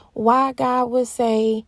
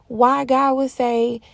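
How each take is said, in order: Both takes have the same delivery.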